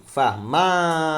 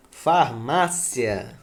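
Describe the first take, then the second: First: "Farmácia" slow and loud on MÁ; slow down and hit MÁ in "Farmácia"; stressed model word. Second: "Farmácia" drawn out slowly; slow model word. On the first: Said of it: "Mas ela é paroxítona". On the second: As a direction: stretch out "Farmácia" syllable by syllable. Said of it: "Quando você separa". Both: Shown as a demonstration.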